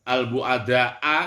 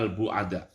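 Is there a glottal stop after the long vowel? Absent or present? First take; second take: present; absent. First: A glottal stop follows the long final vowel. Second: The word ends on the long vowel, no stop. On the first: "kalau dibaca begitu ada hamzahnya setelah alif" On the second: "Cuma hamzahnya dihilangkan"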